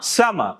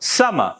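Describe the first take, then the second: No difference in how they are said.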